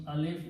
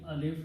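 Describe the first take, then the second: No difference in how they are said.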